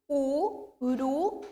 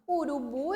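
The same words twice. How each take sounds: First: "urubu" slowly split as u-ru-BU; syllable by syllable. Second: Said in the usual way. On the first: Shown as a demonstration. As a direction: stretch "urubu" into three separate beats, landing on "bu". ("urubu" bem devagar, sílaba por sílaba) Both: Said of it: "eu pronuncio urubu".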